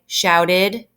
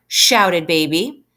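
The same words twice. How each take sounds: First: "Shouted." cut off alone with a rising end; wrong pause. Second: Put-on "shouted Baby" slow and joined as one phrase; no pause. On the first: Teacher showing the wrong way, a pause before the name. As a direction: say "Shouted." as if it stood by itself. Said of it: "I'm not gonna say". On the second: Teacher showing the right way, reading across the line. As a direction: keep "shouted Baby" together without a gap. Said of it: "it's one line until the end mark". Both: Shown as a demonstration.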